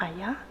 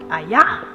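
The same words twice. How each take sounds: First: The word is said softly and gently. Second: The word is said strongly and loudly. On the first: "or it might be just soft" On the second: "he might say it strong like"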